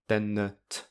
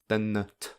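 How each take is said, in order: The two takes are said the same way.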